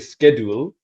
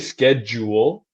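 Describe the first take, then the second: First: The ending is not pronounced like jewel. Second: The ending is pronounced like the word jewel. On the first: The speaker calls it wrong. "I don't say schedule" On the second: The speaker calls it right.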